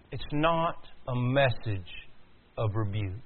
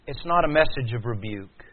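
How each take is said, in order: First: Slow, softer, with a pause before "of rebuke"; slow emphatic repeat. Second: Said in the usual way. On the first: Real, not acted. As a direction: spell it out slowly and quietly, phrase by phrase. Line repeated slowly for emphasis.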